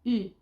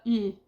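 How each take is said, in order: The two takes are said the same way.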